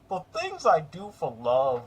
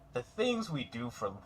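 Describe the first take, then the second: First: It is read in a put-on courage voice. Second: It is read in the speaker's normal voice.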